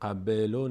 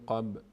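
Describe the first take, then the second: First: The word ends with an added vowel sound. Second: The word ends cleanly without an added vowel. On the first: The speaker calls it wrong. "قبلو قبلو نشه" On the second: The speaker calls it right. "من قبل"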